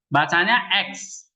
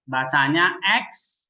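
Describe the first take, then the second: First: Said in the usual way. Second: "X" said slowly and clearly as "eks"; slow model reading. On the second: Shown as a demonstration. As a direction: spell out "X" as "eks", slowly, for the class. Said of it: "baca itu maksudnya pengucapannya ya".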